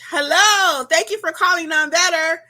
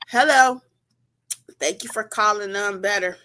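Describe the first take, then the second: First: The voice sounds warm, smiling and upbeat. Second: The voice sounds flat, glum and unenthusiastic. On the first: The caller feels their business is wanted. The speaker calls it right. "they need to feel it" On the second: The caller feels unwelcome. The speaker calls it wrong. "you're not feeling good that day"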